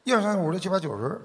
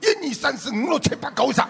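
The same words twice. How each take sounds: First: It is counted in a Beijing accent. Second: It is counted in a Guangdong accent.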